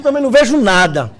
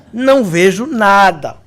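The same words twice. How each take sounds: First: Said in the usual way. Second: "Não vejo nada" slow, each word drawn out; slow emphatic repeat. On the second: Retold or imitated. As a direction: stretch "nada" for comic finality. Repeats slowly for comic emphasis. (repetição lenta e enfática)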